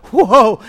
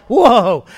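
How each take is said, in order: First: Loud quick whoa; sudden surprise. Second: Loud, falling whoa; stunned awe. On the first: Preacher showing the first reaction to sudden news, surprised. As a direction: catch the news off guard. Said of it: "you kind of go". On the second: Preacher showing the news finally hitting home, stunned. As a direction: let the news really sink in. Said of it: "you just go like". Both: Shown as a demonstration.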